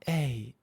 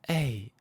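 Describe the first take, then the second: First: The vowel is said with a breathy voice. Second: The same.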